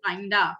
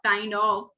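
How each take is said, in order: First: The words blend smoothly into one short word. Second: Both words are said fully and separately. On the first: "इतना smooth हो जाता है काइंड ऑफ की जगह काइंडा" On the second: "हम कह सकते हैं व्हाट काइंड ऑफ को काइंडा"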